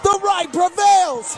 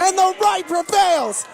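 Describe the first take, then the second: First: Slower, drawn-out proclamation; slow triumphant repeat. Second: Triumphant proclamation. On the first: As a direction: savor every word of it. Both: Real, not acted.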